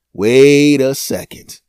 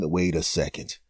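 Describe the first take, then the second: First: Loud, slow eureka; loud realization. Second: Low, soft aside; quiet musing. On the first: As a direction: call it out slow, struck by an idea. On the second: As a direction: murmur it to yourself. Quiet then loud repeat. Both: Acted.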